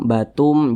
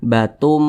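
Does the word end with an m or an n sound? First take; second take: m; m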